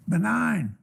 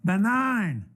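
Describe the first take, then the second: First: Higher-pitched call with a falling end; calling across room. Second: Higher, drawn-out announcement with falling pitch; bingo caller announcement. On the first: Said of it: "standing way across the room there". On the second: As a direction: announce it like calling bingo on the microphone. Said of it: "so I got on the microphone". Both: Retold or imitated.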